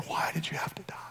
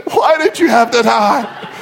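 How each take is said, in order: First: Very soft, breathy whisper; hushed whisper, barely there. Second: Hammed-up tearful wail; exaggerated blubbering lament; mock sobbing. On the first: Retold or imitated. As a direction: whisper it as the grieving man. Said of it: "just starts whispering". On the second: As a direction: cry it out for comic effect. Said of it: "he's weeping and he's sobbing".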